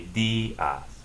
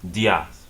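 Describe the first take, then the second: First: The stressed i forms its own syllable. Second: The vowels blend into one syllable. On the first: The speaker calls it right. "you separate it into a separate syllable" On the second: The speaker calls it wrong. "one syllable"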